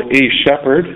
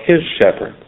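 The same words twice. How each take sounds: First: Weight on the article "a"; stress on A. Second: "his" stressed and higher, falling on shepherd. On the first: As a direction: set "a" apart before shepherd. Contrasts a shepherd with his shepherd. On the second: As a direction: punch the possessive "his". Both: Shown as a demonstration.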